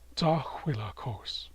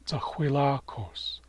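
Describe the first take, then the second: First: The stress is on the first syllable. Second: The stress is on the third syllable. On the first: It names the first half of April. "the first half of April is" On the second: It names the month of September. "The month of September is"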